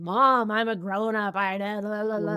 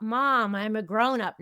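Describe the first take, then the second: First: Protesting twenty-something self. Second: Said in the usual way. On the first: Retold or imitated. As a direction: act out a young adult arguing with mom. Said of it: "in my twenties, I would have had that conversation". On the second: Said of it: "Now, in my twenties".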